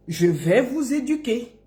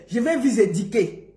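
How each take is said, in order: First: Careful rounded "u" in "éduquer"; teacher's clean "du" in "éduquer"; correct pronunciation. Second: "éduquer" turned into "édiquer"; mock misreading of "éduquer" with an "i"; mispronounced quote. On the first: Shown as a demonstration. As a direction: model "éduquer" neatly, "du" rather than "di". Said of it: "Apprends d'abord à dire éduquer". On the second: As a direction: mimic the slip, "di" for "du" in "éduquer". Mocking his mispronunciation.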